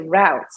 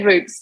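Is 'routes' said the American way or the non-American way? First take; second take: American; non-American. First: It is said the way Americans pronounce it. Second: It is said in the speaker's own non-American way. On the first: "But in America, I think they say routes" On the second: "We say routes too"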